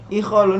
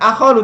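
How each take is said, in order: First: The word begins with an i vowel. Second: The word begins with an a vowel. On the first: The speaker calls it right. "tapi ikhalu, ini unik" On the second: The speaker calls it wrong. "Bukan akhalu"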